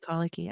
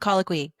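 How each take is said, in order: First: The word ends with a plain 'kee' sound. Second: The word ends with a 'kwee' sound. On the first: The speaker calls it wrong. "I say colicky" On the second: The speaker calls it right. "I know it's colloquy"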